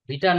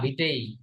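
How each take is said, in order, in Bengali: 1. শব্দটি 'a' স্বরধ্বনি দিয়ে শেষ হয়। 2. শব্দটি 'e' স্বরধ্বনি দিয়ে শেষ হয়। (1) "ভিটা না" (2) "উচ্চারণটা হবে ভিটে"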